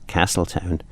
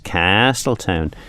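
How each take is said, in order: First: The 'a' vowel is short and plain. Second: The 'a' vowel is drawn out very long. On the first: The speaker calls it wrong. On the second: The speaker calls it right. "you really have to really emphasise the ah"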